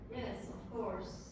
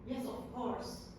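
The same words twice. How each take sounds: First: It is said in a sarcastic, mocking tone. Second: It is said in a sincere, genuine tone. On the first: The speaker does not mean it and is being ironic. "you think that I'm sarcastic" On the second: The speaker truly agrees that it is obvious. "you would understand that I'm saying, yes, of course, it's obvious"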